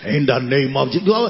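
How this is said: The voice is loud, deep and booming. The voice sounds like it casts out devils. "a prayer voice like"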